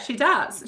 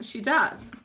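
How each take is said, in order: First: Said in the usual way. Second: Laughing. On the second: Real, not acted. Starts laughing on repeat.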